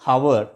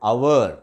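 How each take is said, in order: First: The word begins with an h sound. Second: The word begins directly with a vowel. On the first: The speaker calls it wrong. "హెచ్తో మనము పలుకుతూ ఉంటాము" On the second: The speaker calls it right. "Correct pronunciation అంటే అవర్, ఓతో పలకాలి"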